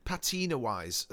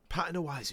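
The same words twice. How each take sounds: First: Patina-wise with a long stressed middle, pa-TEE-na; pronounced like Drew Pritchard. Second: Patina-wise stressed on the first syllable, PAT-in-a; usual pronunciation. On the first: Describing the Sullivans' set, patina-wise said pa-TEE-na. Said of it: "I've said it like the Drew Pritchard says it". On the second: Correcting himself to his own word, patina-wise as PAT-uh-na. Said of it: "Patina's the word I learned". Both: Shown as a demonstration.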